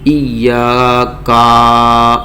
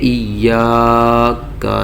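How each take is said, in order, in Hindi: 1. आख़िरी स्वर लंबा खींचा जाता है। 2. आख़िरी स्वर छोटा और जल्दी से बोला जाता है। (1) "ऐसा खींचेंगे नहीं" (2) "इसको जल्दी से पढ़ देंगे, बिल्कुल ही खींचेंगे नहीं"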